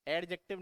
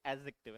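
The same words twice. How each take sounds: First: एडजेक्टिव with the D sounded, ad-jective; wrong way with D. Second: एडजेक्टिव with silent D, a-jective. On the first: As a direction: say एडजेक्टिव pronouncing the D clearly. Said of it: "इसमें डी silent रहता है ना". (एडजेक्टिव में डी बोलकर) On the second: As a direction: say एडजेक्टिव with no D sound. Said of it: "डी silent रखते हैं". (एडजेक्टिव डी silent रखकर) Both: Shown as a demonstration.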